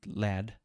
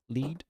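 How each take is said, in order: First: "lad" with a short flat a; corrected "lad". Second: "lead" said as leed, the wrong word. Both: Shown as a demonstration. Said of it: "not lead, lad".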